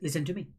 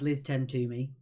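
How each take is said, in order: First: The phrase is said fast, run together. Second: The phrase is said slowly, word by word.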